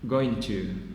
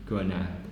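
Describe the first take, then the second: First: Both words are pronounced fully and separately. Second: The words are merged into a reduced form.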